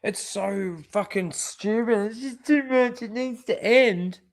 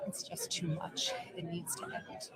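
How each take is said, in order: First: A hint of a whiny mock sob, pitched up; mocking crying. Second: Said in the usual way. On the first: Vlogger mimicking the crying actress, mock whimpering. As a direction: parody her tearful plea. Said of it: "She fucking cries".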